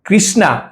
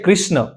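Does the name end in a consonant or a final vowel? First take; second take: vowel; consonant. First: The name ends with a final 'a' vowel. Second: The name ends on the consonant, no final vowel. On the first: It names Draupadi, not the god. The speaker calls it wrong. "કૃષ્ણા એ નામ નથી ભગવાનનું" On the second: It names the god himself. The speaker calls it right. "એમનું નામ છે કૃષ્ણ"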